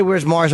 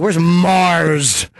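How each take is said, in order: First: Said in the usual way. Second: Sneering, drawn-out MARS. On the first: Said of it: "'Cause I didn't say". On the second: Retold or imitated. Host owning up to how he said Mars's name, sneering. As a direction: say the name like it's something foul. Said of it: "saying Mars's name with a sneer".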